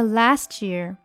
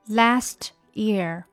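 First: The words are said quickly and run together. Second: The words are said slowly and kept separate. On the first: "但是当你把它再读快连起来" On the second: "因为我们在读慢的时候它是last year"

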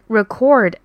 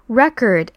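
First: The stress is on the second syllable. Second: The stress is on the first syllable. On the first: The word is used as a verb. "如果重音位置在第二个音节record" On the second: The word is used as a noun. "如果重音在前面开头record"

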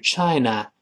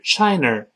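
First: The last syllable is plain without tongue curling. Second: The last syllable has a curled-tongue r sound. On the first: The speaker calls it right. "是China 这么读" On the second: The speaker calls it wrong. "所以不是China"

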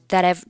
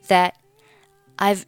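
First: The t of 'that' links into 'I've'. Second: The final t of 'that' is not pronounced. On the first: "或者是选择两个连读成that I've" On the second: "你可以选择that 末尾不发音"

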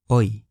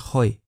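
First: The word begins with no h sound. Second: The word begins with an audible h sound. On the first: The speaker calls it right. "记得H 不发音" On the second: The speaker calls it wrong. "不是hoy"

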